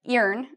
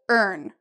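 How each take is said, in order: First: The vowel sounds like 'ee'. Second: The vowel sounds like 'er'. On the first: The speaker calls it wrong. "we don't pronounce this as earn" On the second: The speaker calls it right. "So like this"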